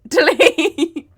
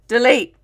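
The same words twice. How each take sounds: First: High and loud, laughing through the word; laughing delete. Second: Loud, high, jokey order to cut; mock command. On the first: She orders her slip cut again, laughing loudly. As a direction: crack up while ordering the cut. Embarrassed at own slang. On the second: She orders her own slip cut, a loud mock shout. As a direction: shout it at the editor in fake panic. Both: Real, not acted.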